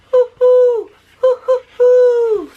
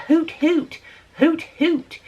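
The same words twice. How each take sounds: First: Very high, loud, slow drawn-out hoo; right owl call. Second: Short, higher, louder hoot hoot; mock the neighbor's clumsy hoot; wrong owl call. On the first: Retold or imitated. Showing viewers how the owl really calls, long high hoos. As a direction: show the real owl's call, long and high. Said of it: "The owl says". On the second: Mocking the neighbor's wrong owl call, clipped hoots. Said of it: "that's not what the owl says".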